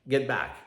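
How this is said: It is said in a relaxed, conversational way.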